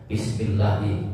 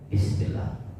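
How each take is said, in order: First: It is said loudly and clearly. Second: It is said very quietly, almost under the breath. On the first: Others can hear it. "Atau dikeraskan" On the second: Only the reciter hears it. "Orang lain gak dengar, tapi kita dengar"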